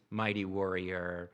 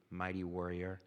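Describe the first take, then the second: First: Mighty warrior drawn out slowly and lower; savoring the title, slow; slow emphasis. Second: Said in the usual way. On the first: Shown as a demonstration. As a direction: let mighty warrior land, slow and deliberate. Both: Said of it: "Did you, did you catch it?".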